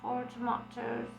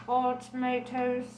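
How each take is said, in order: First: "Tomatoes" with a broad ah, to-MAH-toes; "Tomatoes" said the British way; second tomatoes. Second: "tomatoes" with an ay sound, to-MAY-toes; "tomatoes" said the American way; first tomatoes. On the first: Reader tries pronouncing "Tomatoes" second way, to-MAH-toes. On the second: Reader tries pronouncing "tomatoes" first way, to-MAY-toes. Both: Shown as a demonstration. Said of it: "Or does she say tomatoes?".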